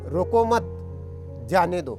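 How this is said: There is a pause right after mat.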